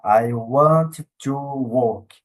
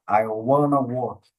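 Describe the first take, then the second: First: Every word is said fully and separately. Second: The words are contracted and run together. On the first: It is not what a native says in conversation. The speaker calls it wrong. "Ele não vai falar I want to work" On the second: It is what a native says in conversation. The speaker calls it right. "Ele vai falar I wanna work"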